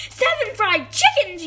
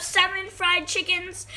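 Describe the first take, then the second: First: Louder, higher outraged echo; mom yelling. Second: Said in the usual way. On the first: A narrator's reading. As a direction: yell it back in disbelief. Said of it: "yelled his mom". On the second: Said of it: "Then Samuel said".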